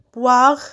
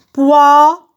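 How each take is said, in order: First: Said in the usual way. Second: Poire loud and stretched, final RE set apart; syllable by syllable. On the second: Shown as a demonstration. Teacher cutting words into syllables, syllable by syllable. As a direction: punch out Poire as POI, pause, RE. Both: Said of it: "je découpe les mots en syllabes".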